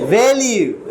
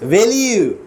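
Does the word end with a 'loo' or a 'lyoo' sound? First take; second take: lyoo; lyoo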